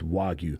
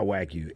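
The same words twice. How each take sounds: First: The first syllable is said as 'wa'. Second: The first syllable is not said as 'wa'. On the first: The speaker calls it right. "It's Wagyu. Wa. It's always Wa" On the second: The speaker calls it wrong. "It's not Wagyu"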